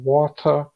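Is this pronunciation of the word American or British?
British. It is said in a British accent. "e britânico"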